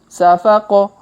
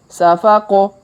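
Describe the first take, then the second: Both takes have the same delivery.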